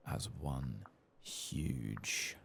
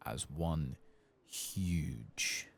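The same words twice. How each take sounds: The two takes are said the same way.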